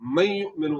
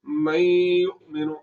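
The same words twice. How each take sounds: First: The nasal sound is not drawn out at all. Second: The nasal sound is drawn out through the nose. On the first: The speaker calls it wrong. "इदगाम तो हो रहा है मगर गुन्ना नहीं हो रहा" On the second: The speaker calls it right. "आवाज को नाक में ले जाकर थोड़ा सा लंबा भी करना है"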